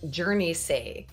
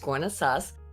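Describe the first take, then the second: First: The name is said the way Jersey people would. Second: The name is said the local Guernsey way. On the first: The speaker calls it wrong. "he's Journey say" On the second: The speaker calls it right. "It's Gournay sauce"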